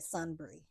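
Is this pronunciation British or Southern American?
British. It is said with a British pronunciation. "the British would say Sunbury"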